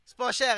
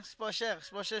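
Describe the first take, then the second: First: Said in the usual way. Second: Softer, pleading sales murmur; quiet repeat. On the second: Retold or imitated. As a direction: drop the pitch and murmur the price pitch. Hawking a chain. (vendeur qui répète tout bas)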